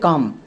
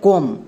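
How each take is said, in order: First: The vowel is an open 'a' as in cup. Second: The vowel is a rounded 'o' as in home. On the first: The speaker calls it right. "তাহলে এর উচ্চারণটা হবে কাম।" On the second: The speaker calls it wrong. "এই ওয়ার্ডের উচ্চারণটা দাঁড়ালো কম, but এই ওয়ার্ডটিকে আমরা কম উচ্চারণ করি না, সো এটা আমাদের এখানে ভুল।"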